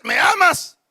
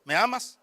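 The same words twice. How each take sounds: First: Raised, pressing question; imitated insistent wife. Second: Imitated wife. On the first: Wife asking a third time, imitated insistent question. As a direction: act a wife demanding an answer. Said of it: "cuando le diga la tercera vez". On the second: Wife first asking her husband, lightly acted soft question. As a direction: lightly act a wife checking softly. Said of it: "la esposa le diga al esposo".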